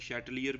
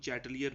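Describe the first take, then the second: First: The name begins with an 'sh' sound. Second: The name begins with a 'ch' sound. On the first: "ज़्यादातर प्रोनाउंस इसको बेटा शैटलियर के लिहाज से किया जाता है" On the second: "कुछ इसको चैटलियर भी पढ़ते हैं"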